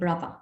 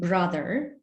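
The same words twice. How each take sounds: First: The middle consonant is a v sound. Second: The middle consonant is a th sound. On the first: "it becomes v, as in brother" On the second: "as in brother"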